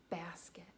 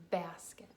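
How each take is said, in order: First: Said in the usual way. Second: "Basket" said carefully, first sound leaned on; slow word demo. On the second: Shown as a demonstration. Teacher models first sound for children, slow "Basket". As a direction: sound out "Basket" slowly and clearly. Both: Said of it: "Say that slowly".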